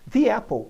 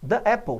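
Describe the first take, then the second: First: 'The' has a long ee sound, linked smoothly. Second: There is a break between 'the' and 'apple'. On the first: The speaker calls it right. "the apple é melhor" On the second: The speaker calls it wrong. "tem uma, uma quebra"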